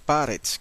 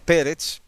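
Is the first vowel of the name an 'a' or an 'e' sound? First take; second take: a; e. First: The first vowel is an 'a' sound. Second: The first vowel is an 'e' sound. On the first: The speaker calls it right. "es Paretz con A al principio" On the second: The speaker calls it wrong. "Algunos dicen Pérez"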